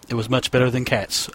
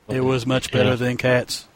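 First: The voice is not fully flat and deadpan. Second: The voice is flat, zombie-like and deadpan. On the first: The speaker calls it wrong. "I didn't really do the right deadpan voice for that" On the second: The speaker calls it right. "you have to do kind of the zombie"

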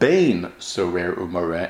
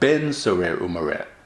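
First: The first word has the vowel 'ei'. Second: The first word has the vowel 'e'. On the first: The word means a son. The speaker calls it right. "It's important that the pronunciation of the word of bein sorer umoreh" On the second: The word means the son of. The speaker calls it wrong. "and not ben sorer umoreh"

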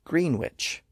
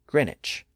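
First: A W sound begins the second syllable. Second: No W sound begins the second syllable. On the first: This is the older form. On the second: This is the modern form.

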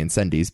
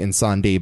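First: The title is said with an American pronunciation. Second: The title is said with a French pronunciation. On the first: This is how an American says it. "but I say Incendies because I'm an American" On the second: This is how the other host says it. "or as you say"

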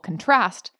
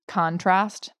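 First: The stress is on the second syllable. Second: The stress is on the first syllable. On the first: It is a verb: the action of comparing things. "if you put the emphasis on the second syllable, contrast, you've now got a verb" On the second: It is a noun: a difference between things. "the noun, the emphasis is on the first syllable"

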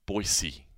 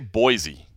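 First: The middle consonant is a hissing S sound. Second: The middle consonant is a buzzing Z sound. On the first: This is how the locals pronounce it. "just kind of an S instead of a Z" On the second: This is the usual outsider pronunciation. "I always say Boise"

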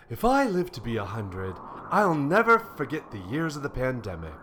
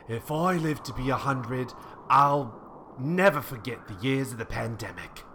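First: The voice sounds like a jolly, wise snowman. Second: The voice does not sound jolly.

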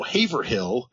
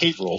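First: The place name is pronounced the non-local way. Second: The place name is pronounced the local way. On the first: The speaker calls it wrong. "every time they're like" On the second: The speaker calls it right. "It's pronounced Haverhill"

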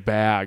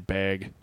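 First: The word has a standard vowel sound. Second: The word has a local regional vowel sound. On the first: This is how the speaker does not say it. "I don't say bag" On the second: This is how the speaker actually says it. "I say bag"

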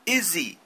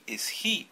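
First: The words are linked with a z-like sound. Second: The two words are said slowly and separately. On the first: "Como si fuera una Z" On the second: "si yo quiero hablar despacio, puedo hacerlo"

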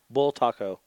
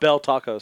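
First: The first syllable sounds like 'bull'. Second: The first syllable sounds like 'bell'. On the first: The speaker calls it right. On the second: The speaker calls it wrong. "Not bell tacos"

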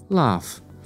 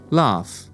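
Both takes have the same delivery.

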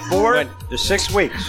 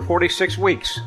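First: The numbers are said slowly and separately. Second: The numbers are run together quickly. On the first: The speaker calls it right. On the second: The speaker calls it wrong.

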